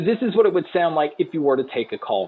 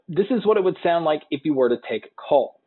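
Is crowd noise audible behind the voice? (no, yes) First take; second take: yes; no. First: The voice is heard with crowd noise behind it. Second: The voice is heard without crowd noise behind it. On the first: "here is a mic test with a crowd noise being played" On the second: "here is a mic test using the Ally Plus 2"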